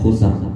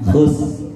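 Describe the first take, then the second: First: The final r is fully sounded with a vowel. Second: The final r is only a faint tongue vibration. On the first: The speaker calls it wrong. "Ada yang baca khusr. Itu sebenarnya dalam uh, kaidah membaca itu kurang tepat" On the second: The speaker calls it right. "nggak ada sernya, nggak ada sernya. Khus. Tapi ada getaran di lidah"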